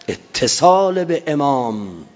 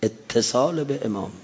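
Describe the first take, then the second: First: اتصال به امام drawn out slowly and firmly; solemn slogan, stretched; slow emphatic slogan. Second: Said in the usual way. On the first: Shown as a demonstration. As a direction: lean into اتصال. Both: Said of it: "repeated slogan takes".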